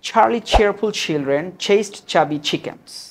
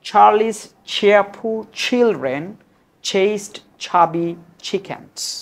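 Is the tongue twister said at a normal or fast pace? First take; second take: fast; normal. First: It is said quickly, at a fast pace. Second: It is said at an ordinary, unhurried pace.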